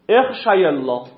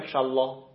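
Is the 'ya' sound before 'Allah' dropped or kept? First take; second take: kept; dropped. First: The ya sound is kept before Allah. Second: The ya sound is dropped before Allah. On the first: The speaker calls it right. "دقت کنید" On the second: The speaker calls it wrong. "آیا ما میتونه بگیم اخ شالله ... نه، جایز نیست"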